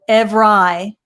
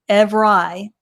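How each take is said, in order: First: The word is said with a deliberately distorted sound. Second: The word is said with a deliberately distorted sound.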